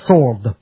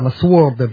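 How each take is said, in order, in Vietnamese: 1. Không có âm w nào được phát âm sau âm s. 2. Âm w được phát âm sau âm s. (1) "đọc bỏ chữ w không đọc, đọc là sword" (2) "nhiều người Việt Nam mình hay đọc là sword"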